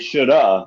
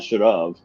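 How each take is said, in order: First: The words are reduced to one blended form. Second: Both words are said fully and separately. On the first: "I usually say shoulda" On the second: "not should have"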